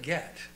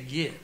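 First: The vowel is a short 'eh' sound. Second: The vowel is a short 'ih' sound. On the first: "Instead of get" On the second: "Steph says I say git"

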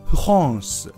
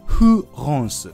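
First: It starts with a weak Japanese fu sound. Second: The same.

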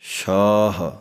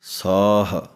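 First: The word begins with an sh sound. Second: The word begins with a plain s sound.

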